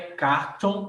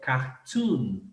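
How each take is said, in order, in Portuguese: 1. A segunda sílaba tem a vogal 'oh'. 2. A segunda sílaba tem a vogal 'oo'. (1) "não é cartoon" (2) "Os em inglês tem som de U"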